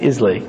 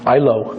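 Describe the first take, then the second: First: The name is said like 'is-lay'. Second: The name is said like 'eye-lo'. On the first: The speaker calls it wrong. "He almost had a heart attack when I said Islay" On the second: The speaker calls it right. "remember, I love Lucy. So I think, Ilo"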